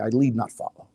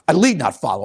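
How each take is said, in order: First: It is said in a calm, even voice. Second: It is said loudly with forceful, intense energy. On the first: The speaker calls it wrong. "But I don't say it like that" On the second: The speaker calls it right. "I say it like this"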